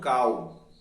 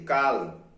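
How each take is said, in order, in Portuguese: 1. A palavra termina com um som parecido com U. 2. A palavra termina com um som de L claro. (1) "e não kal" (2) "o L não tem som de U, é L mesmo"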